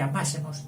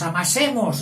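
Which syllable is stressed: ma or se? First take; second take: ma; se. First: The stress falls on the syllable ma. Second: The stress falls on the syllable se. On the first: Let us love one another. "en vez de decir amásemos" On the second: Let us knead one another. "Él cambiaba el acento"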